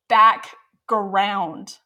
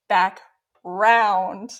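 First: The G sound in the middle is pronounced. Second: The G sound in the middle is dropped. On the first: The speaker calls it right. "I didn't know it was background" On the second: The speaker calls it wrong. "I thought it was back round. No G"

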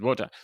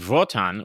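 First: The name begins with a W sound. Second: The name begins with a V sound. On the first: "I would have said Votan" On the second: "which is the German way you would say W"

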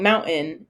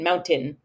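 First: The T in the middle is dropped or swallowed. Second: The T in the middle is clearly pronounced. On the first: "I get made fun of for saying mountain" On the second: "so I over-enunciate mountain"

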